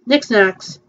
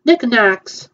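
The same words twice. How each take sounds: First: Nick Snacks, with an s before snacks; wrong name. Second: Nick Knacks, no s, plain n; corrected name. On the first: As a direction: says Nick Snacks, sn sound. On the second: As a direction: says Nick Knacks, starting with n. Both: Real, not acted.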